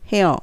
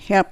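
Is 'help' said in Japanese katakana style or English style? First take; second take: katakana style; English style. First: It is said with Japanese katakana-style sounds. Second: It is said with English sounds, tongue on teeth. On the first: The speaker calls it wrong. "あれがHelp になっちゃうとカタカナになる" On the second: The speaker calls it right. "歯の裏側にベロの先を当てる"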